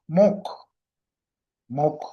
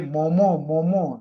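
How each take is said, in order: First: Each syllable ends in a short stop consonant. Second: The syllables end openly, without a final consonant. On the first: This is the proper Tibetan pronunciation. The speaker calls it right. "Tibetan pronunciation for this" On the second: This is how many people commonly say it. The speaker calls it wrong. "I hear them say momo momo like this"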